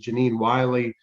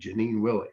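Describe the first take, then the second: First: The surname has a long 'eye' vowel, like Wiley. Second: The surname has a short 'i' vowel, like Willie. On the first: The speaker calls it wrong. "in my mind it was Janine Wiley" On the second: The speaker calls it right. "no, it's Willie"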